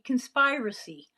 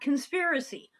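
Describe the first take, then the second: First: The middle vowel sounds like 'spire'. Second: The middle vowel sounds like 'spir' in 'spirit'. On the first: The word follows the verb it comes from. The speaker calls it right. "it's conspire, right? To conspire, it should be conspiracy" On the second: This is how people usually say it. The speaker calls it wrong. "not conspiracy"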